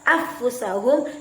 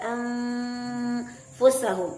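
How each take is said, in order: First: The n is merged away and dropped. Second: The n is turned into an m sound. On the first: "tidak juga dibaca secara idgham" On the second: "tidak boleh juga dibaca secara iqlab"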